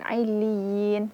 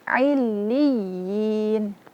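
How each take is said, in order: First: The voice stays flat on the doubled consonant. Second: The voice lifts slightly on the doubled consonant. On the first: The speaker calls it wrong. "jangan illiyin, datar saja" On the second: The speaker calls it right. "meninggikan sedikit suara. Namanya nabrah"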